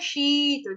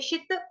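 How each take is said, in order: First: The vowel is held long. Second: The vowel is kept short. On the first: The speaker calls it wrong. "गलती से हम बोल देते हैं शीत" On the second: The speaker calls it right. "यहां पर भी छोटी ई की मात्रा है"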